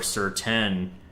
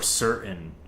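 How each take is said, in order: First: The middle t sound is fully pronounced. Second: The middle t sound is cut out. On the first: "I don't say mountain or mountain or certain" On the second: "The way I pronounce it is mountain or certain"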